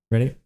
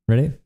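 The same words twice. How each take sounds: The two takes are said the same way.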